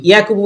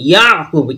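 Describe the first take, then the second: First: "ইয়াকুবু" run straight through without a throat catch; wrong reading. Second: "ইয়াকুবু" with "ইয়া" cut by a throat catch. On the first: Teacher shows what to avoid, "ইয়াকুবু" without throat catch. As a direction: say "ইয়াকুবু" with an open "ইয়া", no catch. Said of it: "ইয়াকুবু করবো না". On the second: Teacher shows the correct reading, throat catch in "ইয়াকুবু". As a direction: stop the sound in the throat after "ইয়া" in "ইয়াকুবু". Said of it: "আওয়াজটি এটকে, আটকে যাবে". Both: Shown as a demonstration.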